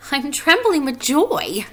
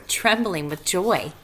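First: High, loud, drawn-out delight; Wilbur's joyful voice. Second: Said in the usual way. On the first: A narrator's reading. Wilbur explains his trembling to a spider, high and joyful. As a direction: stretch it out high and happily. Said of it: "said Wilbur".

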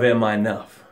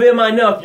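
First: Sinking low. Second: Higher, louder, pressing question; rising urgency. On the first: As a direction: let the question drown. Drowning in the ocean of doubt. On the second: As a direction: ask it like you're fighting the waves. Struggling in the ocean of doubt. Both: Acted.

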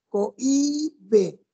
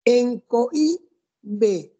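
First: Said in the usual way. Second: Cohibe drawn out very slowly, each vowel held apart; slow syllabified. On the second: Shown as a demonstration. Teacher drawing out the word for students, very slow. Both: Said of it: "¿En dónde está el acento?".

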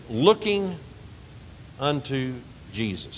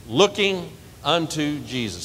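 First: 천천히 또박또박 낭독; slow emphatic recitation. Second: 회중이 따라 하도록 천천히; call for congregation to repeat. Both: Shown as a demonstration. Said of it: "Say that".

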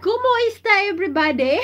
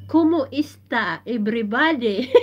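First: Much higher and louder, laughing as she says it; excited intro greeting. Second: Said in the usual way. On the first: Shown as a demonstration. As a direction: belt it out like opening a live show. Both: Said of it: "I need to speak that one in my intro".

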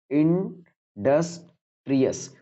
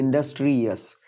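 First: इंडस्ट्रियस said very slowly, stretched syllable by syllable; syllables drawn out. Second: Said in the usual way. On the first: Shown as a demonstration. Teacher counting syllables for students, stretching इंडस्ट्रियस very slowly. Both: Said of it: "ये तीनों मिलकर एक ही बार पढ़े जा रहे हैं".

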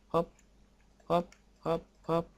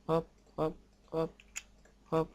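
Both takes have the same delivery.

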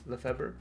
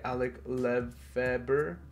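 First: Said in the usual way. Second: Slow, careful go at LEFEBVRE; sounding out slowly. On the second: Real, not acted. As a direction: LEFEBVRE drawn out piece by piece. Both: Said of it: "uh, sorry, I'm so sorry".

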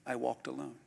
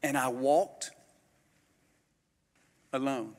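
First: Dropped to a hushed, soft repeat; softer repeat. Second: Slow, with a long pause before alone; dramatic pause. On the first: Preacher repeating to the church, hushed and soft. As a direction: say it again quietly, letting it sink in. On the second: Preacher telling the church, pausing before alone. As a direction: let alone hang after a pause. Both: Shown as a demonstration. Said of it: "Let me say it again".

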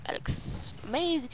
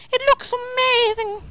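First: Hushed awe. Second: High, gushing exclamation; excited awe. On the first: Gamer first taking in the sight, hushed awe. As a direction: admire it softly, almost to yourself. First, restrained take of admiring remark. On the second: Gamer marvelling at what he sees, high excited awe. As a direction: burst out with delight. Same remark repeated with excitement. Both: Real, not acted.

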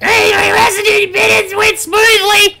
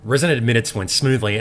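First: Squeaky cartoon announcer; high shouted goofy read; silly high voice. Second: Said in the usual way. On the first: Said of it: "wouldn't it just be shit if I was just like". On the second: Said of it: "you're so lucky that I have this sexy radio voice".

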